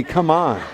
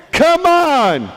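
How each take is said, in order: First: Said in the usual way. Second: High, drawn-out exasperated cry; exasperated outburst. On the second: Acted. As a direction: erupt in loud exasperation. Joseph's exasperation erupts.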